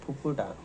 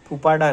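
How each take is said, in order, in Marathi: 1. दुसऱ्या अक्षरात 'u' स्वर आहे. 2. दुसऱ्या अक्षरात 'aa' स्वर आहे. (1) "फुफुटा गाण्याचं नाव आहे" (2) "फुफाटा नाही"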